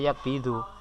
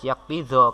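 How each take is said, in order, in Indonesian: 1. Kata itu berakhir dengan vokal 'u'. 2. Kata itu berakhir dengan vokal 'a'. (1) "tidak boleh dibaca yakbidu" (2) "Harus yakbidho karena kemasukan hatta"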